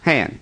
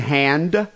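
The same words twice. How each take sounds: First: The final d sound is dropped. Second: The final d sound is pronounced. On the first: "you say hand" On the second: "And hand"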